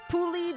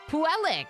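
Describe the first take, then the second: First: The name ends without a k sound. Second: The name ends with a k sound. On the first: The speaker calls it wrong. "I literally apologize for how I pronounce that person's name" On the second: The speaker calls it right. "there's a C at the end"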